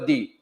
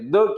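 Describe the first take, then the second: First: The word is said with a long vowel. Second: The word is said with a short vowel. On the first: "long" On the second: "short"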